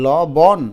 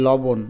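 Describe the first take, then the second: First: লবণ loud and split, "law-bawn", both vowels open; syllable by syllable. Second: লবণ run together as "law-bon", second vowel rounded; natural pronunciation. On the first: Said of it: "নাকি লবণ?". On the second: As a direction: say লবণ lightly with a closed o. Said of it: "এটাই উচ্চারণ করো লবণ". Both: Shown as a demonstration.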